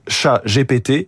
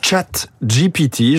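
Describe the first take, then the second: First: The name is pronounced with French sounds. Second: The name is pronounced with English sounds. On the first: The speaker calls it wrong. "en français, c'est pas terrible. Sinon ça fait chat GPT" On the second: The speaker calls it right. "je le dis à l'anglaise"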